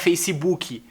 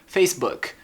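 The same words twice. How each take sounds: First: An extra ee vowel follows the final k. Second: The word ends cleanly on the k sound. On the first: The speaker calls it wrong. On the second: The speaker calls it right.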